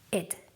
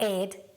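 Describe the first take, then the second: First: The ending has an 'ih' vowel. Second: The ending has an 'eh' vowel. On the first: The speaker calls it right. "You pronounce the ed as id" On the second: The speaker calls it wrong. "not ed"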